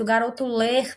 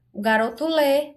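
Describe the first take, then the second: First: "ler" with the final R sounded, as an infinitive; incorrect final R. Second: "lê" ending on a clean open-ended vowel, no R; higher-pitched "lê", stopping on the vowel; correct dropped R. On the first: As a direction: pronounce the R at the end of "ler". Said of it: "tem gente que fala ler". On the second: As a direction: say "lê" without any final R. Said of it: "Na pronúncia". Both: Shown as a demonstration.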